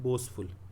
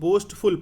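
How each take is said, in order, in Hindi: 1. f से पहले t की ध्वनि मूक होती है। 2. f से पहले t की ध्वनि उच्चारित होती है। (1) "इसमें टील जो है साइलेंट होता है" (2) "ये बोस्टफुल एक्चुअली राइट प्रोनाउंसिएशन नहीं है"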